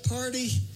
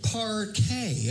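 First: It is said as ordinary party. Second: It is said as a stretched par-tay.

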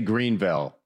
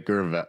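First: The name is said fully, with every sound. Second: The name is squeezed into a shorter, reduced form. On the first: This is how outsiders say the name. "They wouldn't say Greenville" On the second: This is how locals say the name. "They would say Gerville"

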